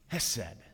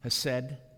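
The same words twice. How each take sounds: First: The opening h sound is strong and breathy. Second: The opening h sound is light. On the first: "a little more hes" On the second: "Am I pronouncing that right"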